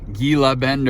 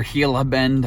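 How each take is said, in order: First: "Gila" tried with a hard G; first pronunciation guess. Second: "Gila" tried with an H sound; alternative pronunciation guess. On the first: Vlogger guessing at the Arizona town's name, "Gila" with hard G. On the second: Vlogger offering another guess at the town's name, "Gila" as HEE-la. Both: Shown as a demonstration. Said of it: "no idea how to pronounce that".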